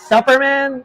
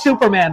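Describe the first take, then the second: First: The first vowel is short, as in 'supper'. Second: The first vowel is long, as in 'soup'. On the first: The speaker calls it wrong. "Not Superman. Like you need two freaking consonants in the middle" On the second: The speaker calls it right. "You do know it's Superman, right?"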